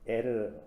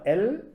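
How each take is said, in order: First: The name ends with an r sound. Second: The name ends with an l sound. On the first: The speaker calls it right. "에르가 맞습니다" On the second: The speaker calls it wrong. "이게 엘 발음이 아니라"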